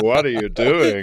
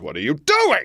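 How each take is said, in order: First: It is said in a seductive way. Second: It is said plainly, without seduction.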